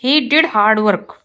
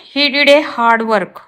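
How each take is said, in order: First: Slow, careful read of the corrected sentence; slow teacher dictation. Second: Slow, careful read of the wrong sentence; slow teacher dictation. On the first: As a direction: lay out each word clearly for the class. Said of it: "right होगा ये". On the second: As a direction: spell it out word by word for the class. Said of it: "wrong है". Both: Shown as a demonstration.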